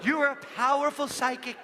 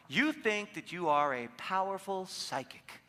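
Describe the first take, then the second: First: Higher, louder, hammed-up fortune-teller voice; mock mystic. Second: Said in the usual way. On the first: Shown as a demonstration. Coach demoing what to tell a neighbor, mock mystic. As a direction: proclaim it like a stage psychic. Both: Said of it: "just do this".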